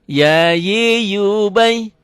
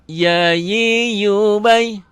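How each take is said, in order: The two takes are said the same way.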